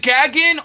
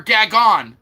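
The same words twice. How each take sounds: First: "Gagin" with short a as in gag; pronunciation GAG-in. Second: "Gagon" with open ah vowels; pronunciation gah-GON. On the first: Streamer checking a chatter's name, "Gagin" as GAG-in. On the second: Streamer checking a chatter's name, "Gagon" with ah vowels. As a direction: say "Gagon" ending like "on". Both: Shown as a demonstration. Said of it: "Is it Gagin or Gagon?".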